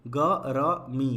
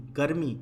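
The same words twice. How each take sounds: First: गरमी split slowly as ग… र… मी; syllable by syllable. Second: Said in the usual way. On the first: Shown as a demonstration. Teacher reads the word for learners, broken up. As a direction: sound out गरमी in pieces. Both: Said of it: "पहले पढ़ लेते हैं".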